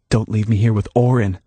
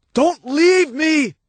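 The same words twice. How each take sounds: First: Said in the usual way. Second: High, slow drawn-out plea; pleading cry. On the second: Acted. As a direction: beg her not to go. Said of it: "he called out to her".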